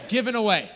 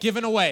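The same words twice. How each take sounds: First: It is said with more passion and feeling. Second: It is said plainly, without much feeling.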